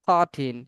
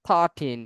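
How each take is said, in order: Both takes have the same delivery.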